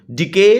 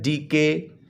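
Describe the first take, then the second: First: Said in the usual way. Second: DK broken as डी, के; split into syllables. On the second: Shown as a demonstration. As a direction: say DK in two separate beats: डी... के. (DK को दो हिस्सों में तोड़कर: डी... के) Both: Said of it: "टू syllable word है".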